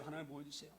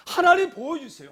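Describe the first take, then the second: First: Breathy whispered prayer, much softer; whispered plea. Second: Higher, louder desperate plea; pleading cry. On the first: (속삭이듯 간절한 기도) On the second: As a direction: cry out to God begging. (하나님께 간절히 부르짖는 외침) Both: Acted. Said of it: "시편 기자 심령과 똑같아요".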